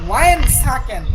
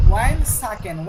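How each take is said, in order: First: wine সাকেন said loud, with wine hit hard; louder, stressing wine; emphatic demo. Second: Said in the usual way. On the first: Shown as a demonstration. Teacher showing students the Saudi word wine সাকেন, stressed loud. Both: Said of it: "আর সৌদির আঞ্চলিক ভাষায়".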